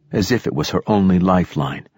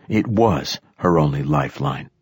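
First: Said in the usual way. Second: Firm emphasis on "was", then falling away; stress on "was". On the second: A narrator's reading. Narrator correcting own simile about the girl, "was" stressed. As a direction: lean on "was" to confirm it as fact.

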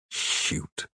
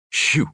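First: Whispered, much softer and voiceless; disgusted mumble. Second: Eager, a little higher; hopeful invitation to speak. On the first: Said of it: "disgusted, and mumbled". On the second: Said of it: "looked up hopefully and said". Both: A narrator's reading.

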